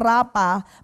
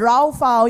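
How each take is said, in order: First: The middle consonant sounds like a p. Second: The middle consonant sounds like an f. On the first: The speaker calls it wrong. "Binabasa po natin ng rapa" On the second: The speaker calls it right. "Yan po ang pronunciation"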